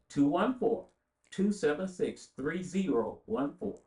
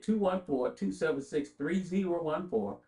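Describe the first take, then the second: First: The number is said more slowly. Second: The number is said at a normal pace.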